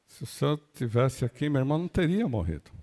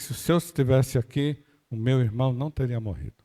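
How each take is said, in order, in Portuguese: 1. A voz soa magoada e repreensiva. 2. A voz soa firme e convicta. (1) "um quê de, de mágoa" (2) "Convicção"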